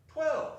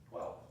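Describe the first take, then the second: First: A high, loud, disbelieving "Twelve."; shocked exclamation. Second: Said in the usual way. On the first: Acted. Scrooge startled by the clock striking twelve, shocked shout. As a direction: blurt "Twelve." in alarm.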